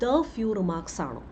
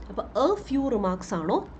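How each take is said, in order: First: "the" stressed, slow, falling tune. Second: "a" stressed with a rising question tune, slow. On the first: Teacher offering students "the few" instead, stressing "the". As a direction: ask it slowly, leaning on "the". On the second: Teacher offering students "a few" as an option, stressing "a". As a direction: ask it slowly, leaning on "a". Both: Shown as a demonstration.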